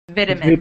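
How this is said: It is said in a British accent. "in British English, it's vitamins"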